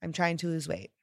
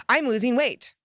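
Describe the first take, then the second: First: Said in the usual way. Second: "I'm losing weight" said high and loud with excitement; bright, loud, thrilled "I'm losing weight"; "I'm losing weight" as an excited, loud announcement. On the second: Shown as a demonstration. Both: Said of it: "more powerful feeling of excitement".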